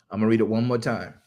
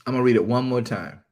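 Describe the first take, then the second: No difference in how they are said.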